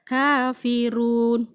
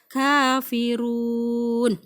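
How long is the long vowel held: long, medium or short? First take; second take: short; long. First: The long vowel is held for two beats. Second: The long vowel is held for six beats. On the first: "saya baca dua harokat" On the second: "Enam harokat lebih panjang lagi"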